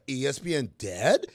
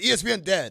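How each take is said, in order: First: The voice rises at the end. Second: The voice falls at the end. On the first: It is asked as a question. The speaker calls it right. "is how you should have worded it" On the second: It is stated as a fact. The speaker calls it wrong. "Your tone was all the way off"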